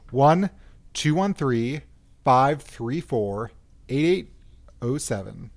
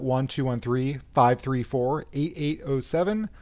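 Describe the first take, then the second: First: The number is said slowly. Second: The number is said at normal speed.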